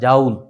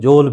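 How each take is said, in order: First: The vowel is an ow sound. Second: The vowel is an oh sound. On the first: "बहुत सारे teacher से आपने सुना होगा जाउल" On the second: "बहुत सारे टीचर जो है वो जोल भी पढ़ रहे होते हैं"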